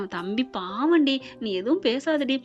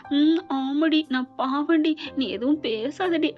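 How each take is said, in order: First: Said in the usual way. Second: Lightly mimicked bashful woman, drawn-out ending; mock-shy, teasing imitation of a lady; coy lady imitation. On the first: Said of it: "ஒரு lady சொல்ற மாதிரி". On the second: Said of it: "ஒரு lady சொல்ற மாதிரி அப்படியே வெக்கப்பட்டுக்கிட்டு". (வெட்கப்படும் பெண் போல லேசாக நடித்து)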